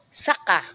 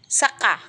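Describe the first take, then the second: First: The stress is on the second syllable. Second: The stress is on the second syllable.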